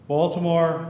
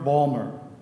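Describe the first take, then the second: First: The name is said in full, three syllables. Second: The name is clipped down to two syllables. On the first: "the city of Baltimore" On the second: "the locals pronounce it Balmer"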